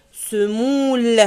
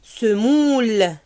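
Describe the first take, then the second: No difference in how they are said.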